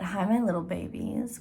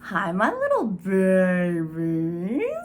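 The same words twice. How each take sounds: First: It is said in her normal voice. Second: It is said in a creepy, witchy voice.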